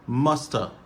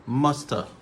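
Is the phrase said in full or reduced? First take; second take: reduced; reduced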